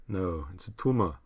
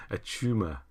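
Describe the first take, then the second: First: A light Arnold Schwarzenegger growl on tumour; lightly voiced action-hero accent; Arnie impression. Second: Said in the usual way. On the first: Answering chat's Arnie improv request with a mild Arnold voice. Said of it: "Can we get one Arnie improv".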